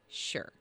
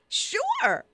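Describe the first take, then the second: First: It sounds sarcastic and grudging. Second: It sounds sincere and genuinely agreeable.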